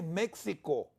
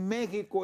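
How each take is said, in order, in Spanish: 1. La x se pronuncia como el sonido ks. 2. La x se pronuncia como una h gutural. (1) "vos no decís México" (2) "el sonido es J"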